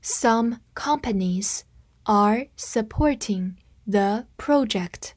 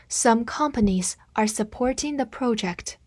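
First: Slow, careful model sentence; slow reading. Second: Said in the usual way. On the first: Shown as a demonstration. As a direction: read it slowly for students to repeat. (慢速示范朗读) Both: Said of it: "跟我慢读一遍".

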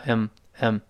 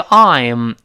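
First: 嗯 as a reduced "I'm", just əm; weakened I'm. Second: "I'm" with the whole long i diphthong, louder; full form. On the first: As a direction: shrink "I'm" to a short 嗯. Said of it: "会弱化成". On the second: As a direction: give "I'm" its full vowel. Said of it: "读快的时候呢，会弱化成". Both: Shown as a demonstration.

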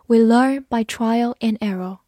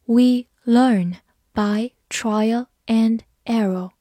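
First: Said in the usual way. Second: Slow, careful read-aloud of the sentence. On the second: Shown as a demonstration. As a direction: read it slowly for students to follow. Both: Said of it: "我们慢读一遍".

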